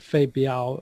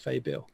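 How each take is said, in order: First: The word is pronounced the Mandarin way. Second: The word is pronounced the Cantonese way. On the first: "I think, is Mandarin" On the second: "I'm pronouncing this in the Cantonese uh, method"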